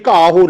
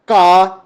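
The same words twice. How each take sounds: First: ਘਾਹੋ said with a second syllable "ho"; wrong "ho" ending. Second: ਘਾ said as one long open syllable; no "ho" ending. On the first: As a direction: voice a final "o" in ਘਾਹੋ. (ਘਾਹੋ, "ਹੋ" ਬੋਲ ਕੇ) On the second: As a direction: hold ਘਾ on "aa" and stop. (ਘਾ, ਅੰਤ ਵਿੱਚ "ਹੋ" ਬਿਨਾਂ) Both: Shown as a demonstration. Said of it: "ਇਹ ਘਾਹੋ ਨਹੀਂ ਹੈ".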